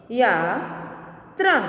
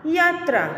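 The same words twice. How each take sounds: First: Slow, each sound drawn out, rising at the end; slow drawn-out reading. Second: Said in the usual way. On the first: Shown as a demonstration. Teacher slowly sounding out a word for students, drawn out. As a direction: stretch the word slowly for the class. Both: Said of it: "आगे देखें".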